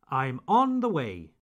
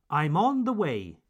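Both takes have the same delivery.

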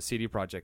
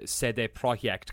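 First: The name is pronounced with English sounds. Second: The name is pronounced with Polish sounds. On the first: The speaker calls it wrong. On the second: The speaker calls it right.

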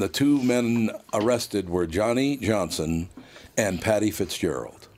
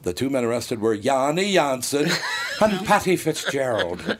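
First: The names are said in a plain accent. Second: The names get an exaggerated ethnic accent. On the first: "I can read the line" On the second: "if I did the same thing that Geraldo did"

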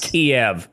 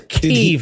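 First: The name is said in the older pronunciation. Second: The name is said in the newer pronunciation. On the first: This is the form people used before. The speaker calls it wrong. "not Kiev" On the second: This is the form people use now. The speaker calls it right. "It is Kiev"

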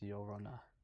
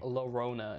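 First: The name is said with a Spanish pronunciation. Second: The name is said with an English-style pronunciation. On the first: The speaker calls it right. "It's Llorona" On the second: The speaker calls it wrong.

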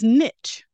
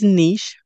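First: The word rhymes with 'rich'. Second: The word does not rhyme with 'rich'. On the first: "you'll hear me say that when I say the riches are in the niches" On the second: "the first one is niche, which is how you'll hear me say it most of the time"

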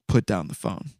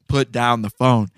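First: It is said in a quieter voice. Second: It is said in a louder voice.

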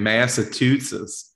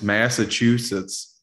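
First: The middle is said with a 'too' sound. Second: The middle is said with a 'choo' sound. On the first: The speaker calls it wrong. "you were saying Massachusetts with like she's tooting" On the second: The speaker calls it right. "It's Massachusetts"

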